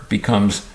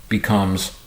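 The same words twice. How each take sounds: Both takes have the same delivery.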